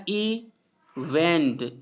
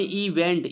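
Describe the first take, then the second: First: "इवेंट" as a long "ई", pause, then "वेंट"; teacher's drawn-out "ई... वेंट"; split syllables. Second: Said in the usual way. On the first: Shown as a demonstration. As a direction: break "इवेंट" in two, slowly. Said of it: "ई अलग है और वेंट". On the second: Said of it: "यानी इवेंट".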